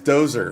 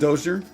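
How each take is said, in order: First: The name is pronounced Dozer. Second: The name is pronounced Dozier. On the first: The speaker calls it right. "It's Dozer" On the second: The speaker calls it wrong. "Have I been saying Dozier?"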